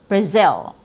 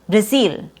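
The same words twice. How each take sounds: First: The second vowel is a relaxed short I. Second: The second vowel is tense, like long E. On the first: The speaker calls it right. "which is natural. It's more natural from a Z sound going to a short I sound" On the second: The speaker calls it wrong. "A mispronunciation would be saying Brazil, Brazil, which has a very tense vowel sound"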